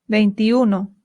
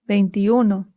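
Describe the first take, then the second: No difference in how they are said.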